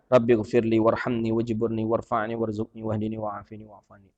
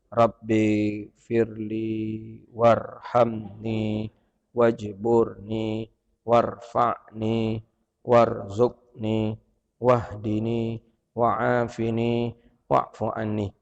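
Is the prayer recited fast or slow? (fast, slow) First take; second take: fast; slow. First: The prayer is recited quickly without lingering. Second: The prayer is recited slowly, word by word. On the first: The speaker calls it right. "agak sardan sikit, tak surah agak kencang sikit" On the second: The speaker calls it wrong. "pelan-pelan dan satu-satu katanya"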